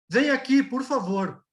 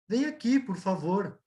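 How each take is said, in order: First: It is said in a firm, commanding tone. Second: It is said in a warm, inviting tone. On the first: The listener is told to come. "E depois você fala como ordem" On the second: The listener is kindly invited to come. "Uma você vai falar como convite"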